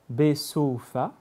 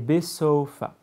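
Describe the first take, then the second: First: The middle vowel is drawn out longer. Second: The middle vowel is kept short. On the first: It means in Soufa, a place name. "le wa qui se prolonge" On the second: It means at the end. "la deuxième prononciation veut dire à la fin"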